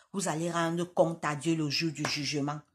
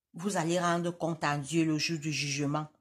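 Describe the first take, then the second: Both takes have the same delivery.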